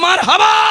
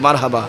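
First: The word is said very loudly. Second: The word is said softly and quietly. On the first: "আরো জোরে" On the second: "আস্তে করে বলি"

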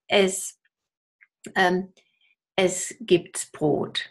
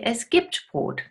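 First: An extra s sound is added after gibt. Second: No extra s sound is added after gibt. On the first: The speaker calls it wrong. "we don't say" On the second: The speaker calls it right. "We say"

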